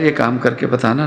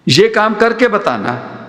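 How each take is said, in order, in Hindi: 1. यह गर्मजोशी भरे, दोस्ताना अनुरोध जैसा सुनाई देता है। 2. यह ताना मारने वाली, चुनौती भरी शर्त जैसा सुनाई देता है। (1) "यार ये काम करके बताना ना" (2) "बात वही है, मतलब बदल गया"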